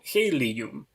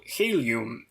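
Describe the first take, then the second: First: "helium" in three syllables, he-li-um. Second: "helium" in two syllables, hel-yum. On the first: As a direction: say "helium" with a full ee vowel, he-li-um. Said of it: "not like a three-syllable". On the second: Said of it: "pronounced like a two-syllable". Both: Shown as a demonstration.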